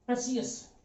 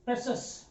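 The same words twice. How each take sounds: First: प्रेशियस in three syllables, pre-si-yas; soft प्रेशियस, ending in "si-yas"; common mispronunciation. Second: प्रेशस in two syllables, "PRE-shus", with no "ee"; soft two-beat प्रेशस, no "i-yas" ending; correct pronunciation. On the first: Retold or imitated. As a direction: say प्रेशियस softly with an "ee" before the final "yas". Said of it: "इसको काफी लोग प्रेशियस पढ़ते हैं". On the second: Shown as a demonstration. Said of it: "इसका शुद्ध उच्चारण, pronunciation होता है".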